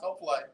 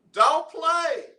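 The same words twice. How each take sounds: First: Said in the usual way. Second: Sudden high, loud playful "Don't play."; mock scolding. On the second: Real, not acted. Teasing caller, playful scolding.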